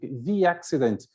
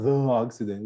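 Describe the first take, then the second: First: The word 'the' is said as 'thee'. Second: The word 'the' is said as 'thuh'. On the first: The speaker calls it right. "It's so natural to speak the accident" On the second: The speaker calls it wrong. "not the accident. It's difficult to speak this way"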